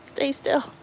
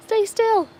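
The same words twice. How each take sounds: First: Said in the usual way. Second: High-pitched coaxing plea after a gasp; gasp, then beg him high to hold still; squeaky gasp. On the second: Real, not acted. Owner coaxing her molting dog, high-pitched and pleading. Plucking the dog's molting fur.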